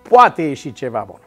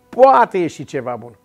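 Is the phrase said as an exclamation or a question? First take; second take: exclamation; exclamation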